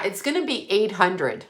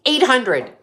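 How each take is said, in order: First: Said in the usual way. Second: Higher, louder outraged repeat; EIGHT punched high and loud; incredulous echo. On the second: Retold or imitated. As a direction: throw the price back in disbelief. Outraged echo of the quoted price.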